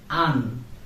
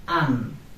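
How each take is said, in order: The two takes are said the same way.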